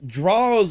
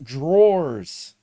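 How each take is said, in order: First: It is said in a casual, clipped way. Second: It is said in the standard, full way. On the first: It is a regional slang way of saying it. The speaker calls it wrong. "like a inner city way of saying it" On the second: It is the usual accepted way of saying it. The speaker calls it right. "It's pronounced drawers"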